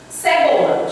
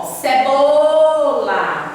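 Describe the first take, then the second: First: Said in the usual way. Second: "cebola" with a long-held "bo", as if calling someone; calling the word. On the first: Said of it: "Chame a palavra cebola". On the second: Shown as a demonstration. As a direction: stretch the middle syllable "bo" of "cebola" very slowly. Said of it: "como se estivesse chamando alguém".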